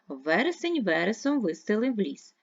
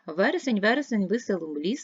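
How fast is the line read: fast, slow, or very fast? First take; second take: fast; very fast. First: The line is read at a quicker pace. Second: The line is read at a very quick pace. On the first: "Тепер читаємо швидше" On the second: "Тепер швидко"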